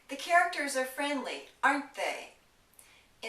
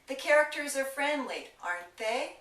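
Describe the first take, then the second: First: The pitch falls on the final tag. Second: The pitch rises on the final tag. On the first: The speaker expects agreement. "the intonation in the tag went down" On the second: The speaker is checking information. "If I use rising intonation on the tag"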